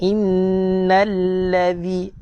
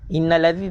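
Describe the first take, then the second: First: The doubled consonant is held long. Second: The doubled consonant is cut short. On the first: The speaker calls it right. "kita nak innallazi. Jaga sabdu" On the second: The speaker calls it wrong. "tak nak"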